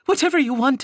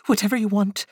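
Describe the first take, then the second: First: "Whatever" pushed higher and louder; a mother recalling her rash promise; stress on Whatever. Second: Said in the usual way. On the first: Acted. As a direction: punch "Whatever", bitter and loud. Retold bargain, emphatic. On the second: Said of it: "the word a faint croak".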